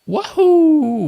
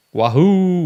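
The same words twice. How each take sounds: First: High, loud whoop to open the show; excited cheer. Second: Excited cheer. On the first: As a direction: shout it out to kick things off. Channel intro cheer. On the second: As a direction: cheer again to restart the intro. Restarted intro cheer. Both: Real, not acted.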